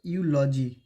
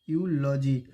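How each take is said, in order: Both takes have the same delivery.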